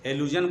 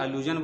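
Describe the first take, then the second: First: The word begins with an 'eh' vowel sound. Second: The word begins with an 'ah' vowel sound. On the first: "English alphabet में ए एक को ए बोलते हैं" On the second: "Roman script में आ के लिए ए आता है"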